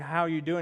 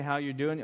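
First: It is a slow, earnest, caring question. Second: It is a quick, casual passing greeting.

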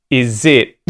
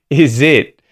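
The two takes are said the same way.

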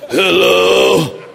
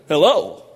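First: It is said in a groggy, just-woken voice. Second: It is said in a clear, alert voice.

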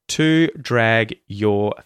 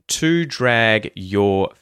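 Both takes have the same delivery.

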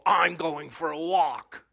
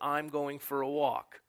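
First: It is said in an irritated, annoyed tone. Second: It is said in a plain, neutral tone. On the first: You are bugging me and I'm leaving. "Now the tonal, ... That's communicating that you are bugging me, woman, and I'm out of here" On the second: It simply states that the speaker is taking a walk. "That's the verbal communication, transmission of knowledge"

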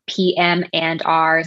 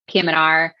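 First: The letters are said at a normal pace. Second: The letters are run together very quickly.

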